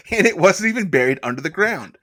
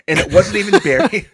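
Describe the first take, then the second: First: Said in the usual way. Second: High, loud, laughing read; cracking up mid-sentence. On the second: Real, not acted. Laughs while rereading.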